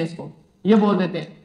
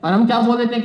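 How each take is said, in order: First: "ये" dropped low and quiet as if mumbled in a rush; mock hasty misreading. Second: Said in the usual way. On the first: Shown as a demonstration. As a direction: say "ये" like a careless hurried slip. ("ये" को जल्दबाज़ी में धीमा बुदबुदाकर बोलें) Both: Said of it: "जल्दबाजी में मतबल बोल देते हैं".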